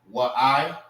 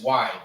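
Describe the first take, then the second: First: The a vowel is sounded, making two syllables. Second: The a vowel is silent, making one syllable. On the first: The speaker calls it wrong. "Instead of saying what I" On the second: The speaker calls it right. "it's why"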